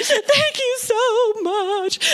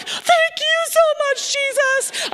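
First: High, drawn-out tearful thanks; imitated weeping. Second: Very high, wailing thanks; mock crying. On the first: Weeping callers thanking the minister on the phone, imitated crying. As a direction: mimic someone weeping with gratitude. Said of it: "they're crying and they're weeping". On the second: Minister tearfully thanking Jesus after the call, imitated crying. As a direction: cry it out to heaven, hammed-up. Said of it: "I am crying and I'm like".

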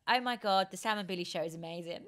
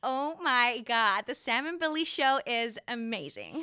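First: Quick American-accented gush. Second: Slow, drawn-out American gush; American accent. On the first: Host setting a line for the guest, American accent. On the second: Guest copying the host's line on request, American accent. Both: Shown as a demonstration. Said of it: "Um, American".

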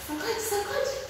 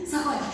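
First: High, soft singsong chant. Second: Said in the usual way. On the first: Pretend. Shaking the fruit for magic.

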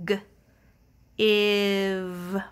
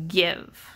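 First: "G, iv" split into a hard g sound then "iv". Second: Said in the usual way. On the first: Shown as a demonstration. Teacher sounds out "G, iv" slowly for young readers. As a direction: stretch "G" and "iv" apart as two sounds. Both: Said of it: "We can hear those sounds".

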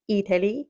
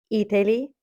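No difference in how they are said.

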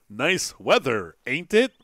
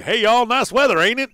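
First: Mock stilted line without any Southern accent, slow and deliberate; over-enunciate it without a drawl, tag question lifted. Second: Loud, high, hammed-up Southern accent; Larry the Cable Guy. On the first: Player mocking the game's voice actor, no Southern accent. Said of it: "there's an accent that goes with it. It's not like". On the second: Player showing how it should sound, loud Southern accent. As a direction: holler it in a broad country Southern accent. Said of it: "Larry the Cable Guy, right?".

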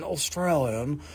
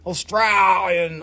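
First: Slower, softer proper English "Australian"; proper English accent. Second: Australian accent with a long, stretched middle vowel; broad Australian accent. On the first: Seller contrasting English with Australian, proper English accent. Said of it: "the English are very kind and proper". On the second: Seller explaining the mixed accent, in exaggerated Australian. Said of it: "mixture of northern, northern U K and Australian". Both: Shown as a demonstration.

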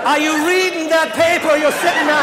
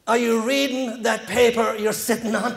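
First: High, loud outraged echo of the question; incredulous repeat. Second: Slow, expressionless stranger's question; deadpan. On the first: Comic echoing stranger's dumb question, high loud disbelief. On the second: Irish stranger to man on barstool, slow deadpan. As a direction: ask it straight-faced, drawing it out. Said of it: "like a deadpan face". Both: Retold or imitated.

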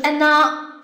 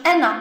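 First: Anna with a drawn-out final a; long final vowel, mistaken. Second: Anna with a short final a; short final vowel. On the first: Teacher showing what to avoid, final vowel long. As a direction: stretch the last vowel of Anna. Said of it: "而不是Anna". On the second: Teacher showing learners the reading, final vowel short. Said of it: "变成短音阶啊". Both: Shown as a demonstration.

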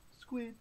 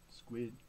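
First: SQUID on a short high note. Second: SQUID on a short low note. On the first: Reader prompts children to say squid, high note. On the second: Reader prompts children to say squid, low note. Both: Pretend.

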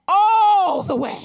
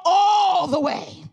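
First: All the way shouted, all hit hardest; stress on all. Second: All the way drawn out slow and loud; stress on all the way. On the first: Pastor repeating to the church, all shouted. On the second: Pastor driving home the point, all stretched and loud. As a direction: lean hard on all. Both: Shown as a demonstration. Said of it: "But I said all the way".

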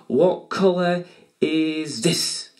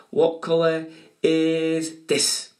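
First: Stretched, teasing quiz question; slow teasing question. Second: Slow teasing question. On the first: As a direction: draw the question out slowly to build suspense. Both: Acted. Drawn-out quiz question to kids.

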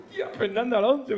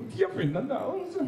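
First: High awed repeat of the name; starstruck again. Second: High, awed gasp of the name; starstruck squeal. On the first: Fan keeps gushing at Alonso, high and awed. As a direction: gush the name once more, a bit less high. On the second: Fan gushes at meeting Fernando Alonso, high and awed. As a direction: gush the name like a dazzled fan. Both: Retold or imitated.

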